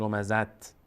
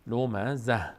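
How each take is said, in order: First: لمزت closed with a clear t; sounded final t. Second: لمزه ending in h with the t dropped; pausal h. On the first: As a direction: finish لمزت on an audible t. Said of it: "نمیگیم لمزت". («لمزت» با تای ساکن در آخر) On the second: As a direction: let the end of لمزه fall onto a breathed h. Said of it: "دیگه ته نمیخوانیم". («لمزه» با های ساکن، بدون تا) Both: Shown as a demonstration.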